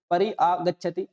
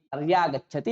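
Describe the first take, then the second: First: परि आगच्छति said with a break between परि and आगच्छति; wrong split form. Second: Said in the usual way. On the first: Shown as a demonstration. Teacher showing the form students must not say. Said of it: "आप ऐसा भी उच्चारण नहीं करना". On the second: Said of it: "ऐसा बनेगा".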